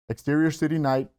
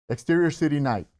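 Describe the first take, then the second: No difference in how they are said.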